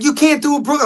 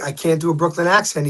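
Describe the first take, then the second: First: High-pitched incredulous imitation; retold disbelief. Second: Said in the usual way. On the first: Producer questioning the actor about a Brooklyn accent, retold disbelief. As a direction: echo it back higher, mildly incredulous.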